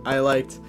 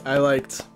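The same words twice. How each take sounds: The two takes are said the same way.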